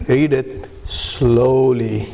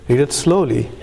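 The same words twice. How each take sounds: First: Retold order, drawn out word by word; slow, emphatic instruction. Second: Said in the usual way. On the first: Chip person tells the puzzled newcomer to read it, very slowly. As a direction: stretch out SLOWLY to model the pace. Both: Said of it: "He said, "Read it slowly".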